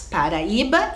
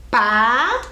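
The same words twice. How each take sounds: First: Said in the usual way. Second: "Pa-ra-i-ba" in four separate beats, long pauses between; syllable by syllable. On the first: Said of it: "Então eram duas palavras". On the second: Shown as a demonstration. Teacher showing pupils the syllables, "Pa-ra-i-ba" broken apart. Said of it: "O i fica sozinho".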